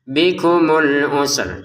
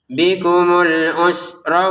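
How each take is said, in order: First: The word ends on a bare r sound. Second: The r is followed by an a vowel. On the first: The reciter stops here. "ada ro yang dibaca sukun juga karena kita berhenti" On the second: The reciter continues into the next words. "kalau digambung maka ro-nya harokatnya apa? Fathah"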